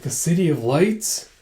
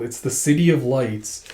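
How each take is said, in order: First: Slow "City of Lights" rising at the end; drawn-out, rising "City of Lights"; questioning echo. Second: Said in the usual way. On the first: Acted. Girl echoes in wonder.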